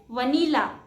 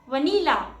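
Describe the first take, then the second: Both takes have the same delivery.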